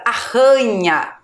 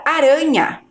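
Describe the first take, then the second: First: Arranha with a strong H-like RR; drawn-out arranha, breathy strong RR. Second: Aranha with a light tapped R; weak R. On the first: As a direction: push the double R in arranha. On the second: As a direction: clear aranha, R as a quick tap. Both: Shown as a demonstration. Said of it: "a pronúncia da gente é diferente".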